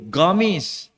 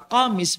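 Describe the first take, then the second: First: The word begins with a hard 'g' sound. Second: The word begins with a deep 'q' sound. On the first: This is how Yemeni speakers say it. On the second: This is the standard Arabic form.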